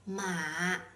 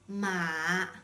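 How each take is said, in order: First: The pitch stays very low. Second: The pitch stays very low.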